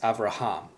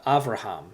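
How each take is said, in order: First: The stress is on the last syllable. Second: The stress is not on the last syllable. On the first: "really with the accent, it's Avraham. The accent is on the last syllable" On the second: "is how you pronounce it in Hebrew"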